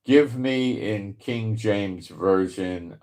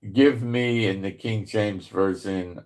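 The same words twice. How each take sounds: First: Slow and careful for the machine; slow, deliberate command. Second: Said in the usual way. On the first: Real, not acted. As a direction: spell it out slowly to the assistant. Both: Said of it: "no, didn't work".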